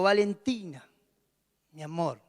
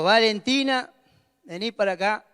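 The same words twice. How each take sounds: First: Soft, tender calling of her name. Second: Firm, no-nonsense summons; stern call. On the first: Father gently calling his youngest daughter, soft and tender. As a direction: call her name sweetly, like a treat is coming. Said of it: "la llamo con un tono". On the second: Father summoning his youngest daughter, firm and serious. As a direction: call her over like trouble is coming. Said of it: "cuando yo la llamo con otro tono". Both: Shown as a demonstration.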